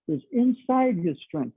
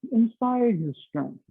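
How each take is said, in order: First: Slow, weighty "inside", the word stretched and lifted; teacher drilling the key word "inside"; stress on inside. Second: "Inside" slow and lifted, each word spaced out; a coach driving the phrase home, "Inside" stressed. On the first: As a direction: lean hard on "inside" and draw it out. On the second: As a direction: repeat it slowly so it sinks in, hitting "Inside". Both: Shown as a demonstration.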